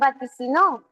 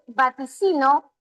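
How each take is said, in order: First: The stress is on the final syllable. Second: The stress is on the second-to-last syllable. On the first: He or she predicted. "pero también puedo decir vaticinó" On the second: I predict. "puedo decir vaticino"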